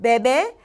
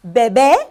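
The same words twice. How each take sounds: First: "bebe" with the stress on the first syllable, BE-be; unaccented bebe. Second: "bebé" louder with the last syllable raised, be-BÉ; "bebé" with a raised final syllable; accent on the last syllable. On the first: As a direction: say "bebe" plain and even, no raised last syllable. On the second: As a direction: lift your voice on the final é of "bebé". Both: Shown as a demonstration. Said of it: "took bebe and put an accent on it".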